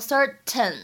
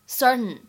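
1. 这个 t 发音很重，完全爆破。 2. 这个 t 很轻，气流从鼻子出来。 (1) "不用刻意读成certain 啊，这样就不是很好听" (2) "这个t 的发音呢可以不用读的那么重"

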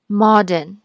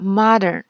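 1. 这是用英式元音发音的。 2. 这是用美式元音发音的。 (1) "英音里会读modern" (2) "美语里modern 是这样发的modern"

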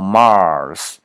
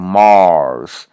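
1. 这个元音是平的，共鸣很普通。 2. 这个元音是圆的，共鸣很强。

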